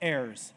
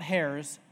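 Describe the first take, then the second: First: The word begins directly with a vowel sound. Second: The word begins with an audible H sound. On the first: The speaker calls it right. "It's a silent H" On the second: The speaker calls it wrong. "Not heirs"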